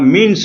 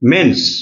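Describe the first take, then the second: First: The vowel is a close 'i' sound. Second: The vowel is an open 'e' sound. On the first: The speaker calls it wrong. "অনেকে ... বা মিন্স বলে" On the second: The speaker calls it right. "মেন্স ময়েকা দন্তন্য দন্ত"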